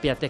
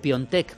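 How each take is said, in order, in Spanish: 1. El nombre se dice con una vocal 'a' simple. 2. El nombre se dice con un sonido 'on'.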